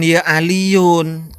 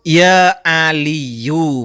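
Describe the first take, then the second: First: The name ends with an added n sound. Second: The name ends in a vowel without n. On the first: The speaker calls it wrong. "bukan ya Aliyun" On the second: The speaker calls it right. "tanpa tanwin"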